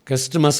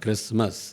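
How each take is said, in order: First: The t sound is pronounced in the middle. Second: The t sound is silent in the middle. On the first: The speaker calls it wrong. "క్రిస్టమస్ కాదు" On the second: The speaker calls it right. "టీ silent అనమాట"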